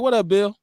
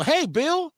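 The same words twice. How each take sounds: First: Said in the usual way. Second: High-pitched, put-on office hello; mock code-switch greeting. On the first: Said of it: "So I just talk normal". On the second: Shown as a demonstration. Showing how he doesn't greet Bill at work, mock code-switch. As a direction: pitch it up into a fake polite hello. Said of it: "I don't".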